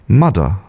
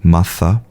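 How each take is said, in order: First: The middle sound is a d. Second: The middle sound is a clear th. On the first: This is a predicted future pronunciation. "more like a T or a D, like mudder" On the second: This is the standard pronunciation. "stick out your tongue and have a very clear th"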